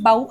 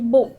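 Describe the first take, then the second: First: The vowel sounds like the one in "cow". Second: The vowel sounds like the one in "go". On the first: To bend forward from the waist. "एका ठिकाणी आपण बाऊ असा करतोय" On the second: A weapon for arrows or a ribbon tied in hair. "एका ठिकाणी बो असा याचा उच्चार करतोय"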